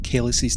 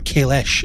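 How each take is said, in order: First: The name ends with a hard s sound. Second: The name ends with an sh sound. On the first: This is the older way of saying it. "was always a hard S back in the day" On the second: This is the current way of saying it. "as we now pronounce it"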